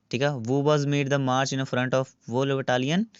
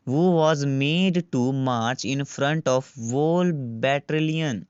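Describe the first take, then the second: First: Battalion said cleanly as ba-tal-ion; corrected reading. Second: Slow question read, battalion slurred as bettrilian; misread battalion. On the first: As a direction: reread the question, fixing battalion to ba-tal-ion. (battalion को सही बोलना, बटालियन) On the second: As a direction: stumble over battalion, saying it like bettrilian. (battalion को गलत बोलना, बेट्रिलियन जैसा) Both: Shown as a demonstration. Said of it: "किन्नियां गलतियां कर रहे हैं मैं पढ़न विच".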